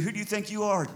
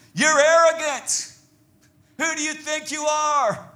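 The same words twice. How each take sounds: First: Mild, paraphrased accusation; lightly acted challenge from a scornful brother; restrained accusing question. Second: High, loud acted accusation; drawn-out, raised-voice challenge; accusing. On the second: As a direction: hurl it like an outraged brother. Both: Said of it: "His brother was accusing him".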